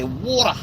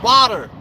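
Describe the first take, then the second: First: It is said with the local non-American accent. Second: It is said with an American accent.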